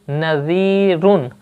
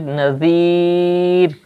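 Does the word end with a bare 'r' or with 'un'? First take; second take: un; bare r. First: The word ends with a vowel and n. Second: The word ends on a bare r sound.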